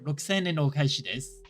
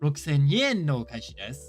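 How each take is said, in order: First: The word 'en' starts without a y sound. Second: The word 'en' starts with a y sound. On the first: The speaker calls it wrong. "Feels a bit odd" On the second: The speaker calls it right. "Feels right"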